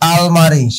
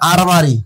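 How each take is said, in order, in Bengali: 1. দ্বিতীয় ব্যঞ্জনটি l ধ্বনি। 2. দ্বিতীয় ব্যঞ্জনটি r ধ্বনি। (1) "এটা আমরা বলে ফেলি আলমারি" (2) "এই একটা র"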